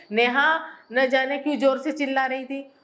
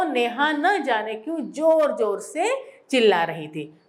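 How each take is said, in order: First: Said in the usual way. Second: जोर जोर said as a highlighted pair, a little more weight on each; stress on जोर जोर. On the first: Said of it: "तो उतना मजा नहीं आता वाक्य में". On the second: Shown as a demonstration. Teacher showing pupils the stressed doubled word, emphatic. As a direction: lean on जोर जोर से to make the sentence special. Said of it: "इसमें हमने जोर जोर से शब्दों को हाईलाइट किया है".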